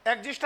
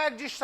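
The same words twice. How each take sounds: First: "एग्जिस्ट" ending on a T, no S after it; exist without S. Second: "एग्जिस्ट" with an added hissing S at the end; exists with S. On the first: Teacher asking students which form fits, "एग्जिस्ट" without final S. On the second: Teacher offering the other form, "एग्जिस्ट" with final S. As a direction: say "एग्जिस्ट" as exists, plural-style S ending. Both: Shown as a demonstration. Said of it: "एस लगेगा या नहीं लगेगा?".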